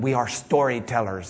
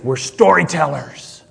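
First: It is said in an Irish accent. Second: It is said in a Texan drawl.

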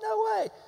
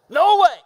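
First: It sounds curious and surprised. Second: It sounds loud and forcefully refusing.

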